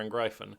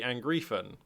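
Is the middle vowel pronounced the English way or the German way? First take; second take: German; English. First: The middle vowel is read the German way. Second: The middle vowel is read the English way. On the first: The speaker calls it right. "in German, it's the other way around" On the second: The speaker calls it wrong. "in English, when you have the um, E before the I like this, it's uh, it would be Angriffen"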